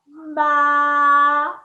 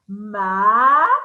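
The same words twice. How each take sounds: First: The pitch stays high and level. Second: The pitch rises from middle to high. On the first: "That's the first tone" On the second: "It's going up. That's the second tone"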